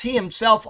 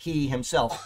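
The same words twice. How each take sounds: First: "he himself" said higher and louder, both words hit hard; stress on he himself. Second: Said in the usual way. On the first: Shown as a demonstration. Preacher stressing "he himself" for the congregation. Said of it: "are emphatic". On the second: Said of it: "the Greek will read, one and two after another".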